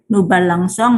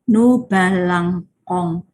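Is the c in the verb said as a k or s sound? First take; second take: s; k. First: The c is pronounced as an s sound. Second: The c is pronounced as a k sound. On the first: The speaker calls it right. "kalau C ketemu O dibaca S" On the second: The speaker calls it wrong. "kalau tidak pakai sedi, kita akan membacanya"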